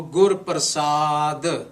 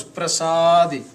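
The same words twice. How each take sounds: First: "Prasad" slow, long "saa", ending on a neutral "duh"; "Prasad" drawn out and closed without the i; final I dropped. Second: "Prasadi" with a long loud "saa" and a clear "dee"; "Prasadi" ending on a spoken i vowel; Prasadi with final I. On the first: Retold or imitated. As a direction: misread it as "Gur Prasad", with no final "ee". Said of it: "guys also read Gur". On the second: Shown as a demonstration. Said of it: "This word is Prasadi".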